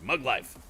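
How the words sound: It is said with a proud tone.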